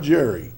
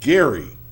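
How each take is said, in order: First: The name starts with a soft J sound. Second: The name starts with a hard G sound. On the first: The speaker calls it wrong. "It's not Jerry" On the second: The speaker calls it right. "This is Gary"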